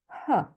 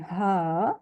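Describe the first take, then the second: First: The vowel is reduced to a short schwa. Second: The vowel is long and full. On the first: "the long A becomes a schwa" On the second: "Instead of saying her"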